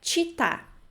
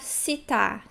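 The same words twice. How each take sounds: First: The first consonant is a 'ch' sound. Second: The first consonant is not a 'ch' sound. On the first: The speaker calls it right. "mas o certo é città. C I tem a pronúncia de ti" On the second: The speaker calls it wrong. "Cuidem para não pronunciar città"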